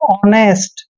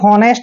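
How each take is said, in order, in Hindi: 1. शब्द एक स्वर से शुरू होता है, h साइलेंट है। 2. शब्द की शुरुआत में h की ध्वनि है। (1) "इसको पढ़ेंगे हम हमेशा ऑनेस्ट" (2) "कभी भी हॉनेस्ट नहीं पढ़ते हैं"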